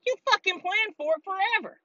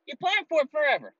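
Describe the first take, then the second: First: Angry accusation. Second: Said in the usual way. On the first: Real, not acted. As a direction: throw the blame at them hard. Accusing officials.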